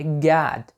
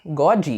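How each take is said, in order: First: GOD as "gahd", ending cleanly on D; correct pronunciation of God. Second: GOD as "gaw-djee", two syllables; mispronounced God. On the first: Teacher spells then says it, God correctly pronounced. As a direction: open AH in "God", no vowel after it. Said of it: "G O D". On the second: Teacher shows learners the error, God mispronounced. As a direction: add an EE after the D of "God". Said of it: "você tá errando na pronúncia". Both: Shown as a demonstration.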